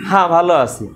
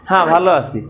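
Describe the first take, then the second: The two takes are said the same way.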